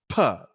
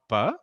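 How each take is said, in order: First: The p has a strong burst of breath. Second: The p has no burst of breath. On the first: This is the English p. The speaker calls it right. "build up the air and then say it with as if, you know, you're creating an explosion" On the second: This is the p of Telugu or Hindi. The speaker calls it wrong. "this is actually not pa"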